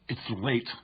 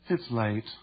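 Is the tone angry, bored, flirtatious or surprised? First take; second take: angry; bored. First: It is said angrily. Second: It is said with boredom.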